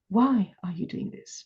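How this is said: The question sounds curious and caring.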